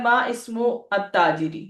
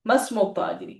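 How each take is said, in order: First: "मा इस्मु" said as two separate words; unjoined reading. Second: "मस्मु" run together as one word; joined reading. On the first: Teacher reading the question to students, "मा इस्मु" unjoined. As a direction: keep "मा" and "इस्मु" apart, both vowels sounded. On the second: Teacher repeating the question for students, "मस्मु" joined. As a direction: elide the vowels into a single "मस्मु". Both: Shown as a demonstration. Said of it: "अय्यन मुस्तअमिल".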